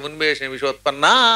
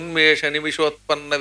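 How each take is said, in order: First: The final vowel is drawn out long. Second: The final vowel is short and runs straight on. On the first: The compound is broken and the meaning changes. The speaker calls it wrong. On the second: It stays one compound with the next words. The speaker calls it right.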